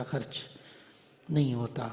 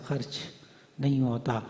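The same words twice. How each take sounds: The two takes are said the same way.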